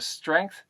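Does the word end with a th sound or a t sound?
th. It ends with a standard English th sound.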